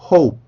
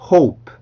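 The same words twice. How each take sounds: First: The final P is held without release. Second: The final P is released with air.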